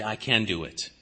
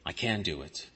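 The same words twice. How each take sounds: First: Low, hushed self-talk; a self-righteous man softly reassuring himself; quiet self-assurance. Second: Much softer and lower, nearly gone; whispering the same boast to himself; fading self-assurance. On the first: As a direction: mutter it to yourself, sure of it. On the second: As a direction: let the boast sink to a murmur. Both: Acted. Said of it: "And they say".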